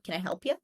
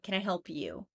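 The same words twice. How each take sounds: First: The final word is reduced to 'ya'. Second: The final word is fully pronounced as 'you'. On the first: "If I turn you into ya" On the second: "then we'll fully pronounce it"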